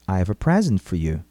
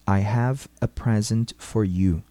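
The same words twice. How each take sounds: First: It is said at normal speed. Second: It is said slowly and carefully.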